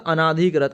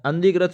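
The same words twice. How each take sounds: First: अनाधिकृत with an extra आ after अन; the common mistake, अनाधिकृत with the added long vowel; wrong form. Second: अंधिकृत with the nasal अं straight into धि; the correct form, अंधिकृत with the nasal running straight into dhi. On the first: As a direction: say अनाधिकृत as a-na-dhi-kṛt with the long aa. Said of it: "अनाधिकृत गलत होता है". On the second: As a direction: say अंधिकृत as an-dhi-kṛt with no vowel between. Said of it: "अंधिकृत सही होता है". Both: Shown as a demonstration.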